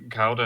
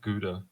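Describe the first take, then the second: First: It is said with a British pronunciation. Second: It is said with a non-British pronunciation. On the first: "it's just the uh, British pronunciation" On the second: "instead of Gouda"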